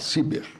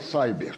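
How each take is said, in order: First: The word is pronounced with Portuguese-style sounds. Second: The word is pronounced with English-style sounds. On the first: It is the nationalized form. "quando for I eu vou falar Ciber" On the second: It is the borrowed foreign form. "Quando tiver Y eu vou falar Cyber"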